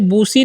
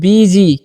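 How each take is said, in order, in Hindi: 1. पहला स्वर एक लंबी 'oo' ध्वनि है। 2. पहला स्वर 'ee' ध्वनि है। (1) "इसे बूसी नहीं पढ़िएगा" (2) "क्या पढ़ना है आपको, बीजी"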